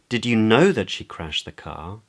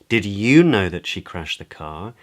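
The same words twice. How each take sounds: First: The word "know" carries the main stress. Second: The word "you" carries the main stress. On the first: It asks whether the listener knew for certain. "Questions whether the other person knew for certain" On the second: It accusingly asks whether this listener knew. "Questions in a sort of accusatory way as to whether the other person knew"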